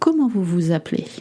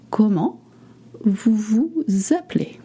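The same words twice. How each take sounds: First: The question is said quickly, at natural speed. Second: The question is said slowly and carefully. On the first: "let's do it real speed. I went a little fast" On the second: "just take your time"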